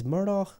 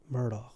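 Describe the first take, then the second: First: Murdaugh with a throaty Scottish ch ending; Scottish pronunciation. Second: Said in the usual way. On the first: Shown as a demonstration. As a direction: end Murdaugh on a rasped "kh", pitched higher.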